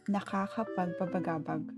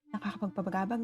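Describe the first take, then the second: First: It is said at a normal pace. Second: It is said fast.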